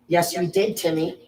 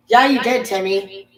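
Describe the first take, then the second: First: Said in the usual way. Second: Insistent correction. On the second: Acted. Telling pupil Timmy he did fail, insistent raised voice. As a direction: push it harder, insisting.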